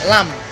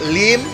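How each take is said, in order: First: It ends in m with an a vowel. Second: It ends in m with an i vowel. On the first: "kalau Kanton bahasa Kantonnya" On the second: "Kalau bahasa Hokkiennya itu"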